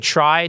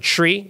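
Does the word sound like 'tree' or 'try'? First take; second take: try; tree. First: The vowel sounds like the word 'try'. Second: The vowel sounds like the word 'tree'. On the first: It is kept apart from the word for a plant. The speaker calls it wrong. "People will often say try to distinguish between tree" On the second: It follows the sound of the word it comes from. The speaker calls it right. "actually, you pronounce it tree"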